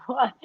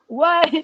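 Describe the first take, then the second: First: Said in the usual way. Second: Higher, louder stunned "What?"; stunned disbelief. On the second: Retold or imitated. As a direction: blurt "What?" up high and loud in shock. Hearing her name announced.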